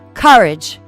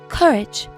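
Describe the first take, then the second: First: Theatrical, with an open-mouthed first vowel. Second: British, with no r in the first vowel. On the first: "I'd say courage, courage, with like almost an open mouth" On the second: "if I was British, I would say courage"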